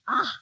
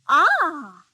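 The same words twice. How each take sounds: First: It sounds disgusted. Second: It sounds pleased.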